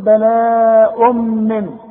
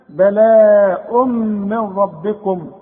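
First: The final n sound is clearly pronounced. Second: The n is dropped, merging into the r. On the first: The reciter is pausing on this word. "تثبت عند الوقت، تقول بلاء من" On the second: The reciter is continuing without pausing. "عند الوصل اسقطها، اشبك الميم مع الراء"

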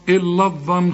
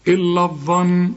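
No difference in how they are said.

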